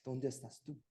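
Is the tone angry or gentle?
gentle. It is said in a gentle, forgiving tone.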